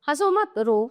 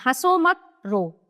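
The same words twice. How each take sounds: First: The pause comes after the first word. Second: The pause comes after the second word. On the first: Laugh; do not cry. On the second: Do not laugh; cry instead.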